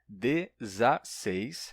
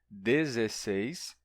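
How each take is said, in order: First: The second vowel is an 'a' sound. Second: The second vowel is an 'e' sound. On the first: This is the usual form in Portugal. "em Portugal, o comum é que seja ... essa forma com A" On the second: This is the usual form in Brazil. "No Brasil, é comum que a gente diga e escreva"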